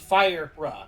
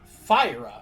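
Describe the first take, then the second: First: The R sound is pronounced twice. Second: The R sound is pronounced once. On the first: "like two R sounds specifically"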